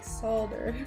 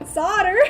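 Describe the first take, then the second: First: The word is said with a soft L sound. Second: The word is said without an L sound. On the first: "sometimes I'll say it with like a soft L" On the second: "I'm just like"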